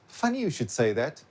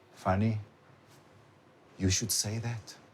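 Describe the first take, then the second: First: It is said straight through without a pause. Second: There is a pause after the word funny. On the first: The person is about to add their opinion. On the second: The remark itself is being called funny.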